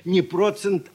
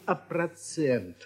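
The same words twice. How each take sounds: First: Процент stressed on the first syllable, PRO-tsent; wrong stress on процент. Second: Процент slowly, stressed on the last syllable, pra-TSENT; correct stress on процент. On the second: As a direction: model процент with a drawn-out TSENT. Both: Shown as a demonstration.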